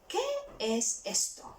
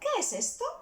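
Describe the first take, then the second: First: It is said at a normal, careful speed. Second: It is said a little bit faster.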